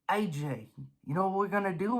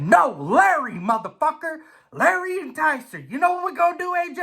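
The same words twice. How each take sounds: First: Hushed, conspiratorial idol whisper-talk; idol's voice. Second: High, cocky hyped-up voice; idol's voice. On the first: Idol Larry tempting the racer, hushed and sly. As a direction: lean in and tempt him softly. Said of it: "comes to the front of my brain and says". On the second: Idol Larry egging the racer on, high and cocky. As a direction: sell it like a wild hype man. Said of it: "He said". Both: Retold or imitated.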